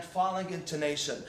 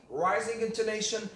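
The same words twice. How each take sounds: First: "falling intonation" said with a dropping tune. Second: "rising intonation" said with a lifted tune. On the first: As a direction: let the pitch fall through "falling intonation". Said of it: "and falling intonation". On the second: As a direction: let the pitch climb on "rising intonation". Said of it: "I mean rising intonation". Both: Shown as a demonstration.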